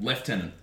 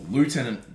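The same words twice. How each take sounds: First: The word uses the Australian military pronunciation. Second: The word uses the American pronunciation. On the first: "Australians call, or at least Australian military" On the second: "For our American listeners out there"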